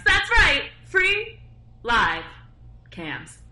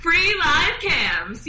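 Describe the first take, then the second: First: Mock-grand fade; word by word. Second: Slow, higher, louder "Free Live Cams"; drawn out. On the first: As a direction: space out "Free Live Cams". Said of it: "I owe you one good one". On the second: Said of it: "You do the intro". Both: Shown as a demonstration.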